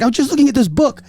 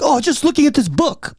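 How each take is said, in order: First: High put-on Chinese accent. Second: High pitched imitation of a heavy Chinese accent. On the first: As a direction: repeat her excuse in a thick Chinese accent. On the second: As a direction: mimic her defensive excuse in a Chinese accent. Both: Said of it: "heavy Chinese accent".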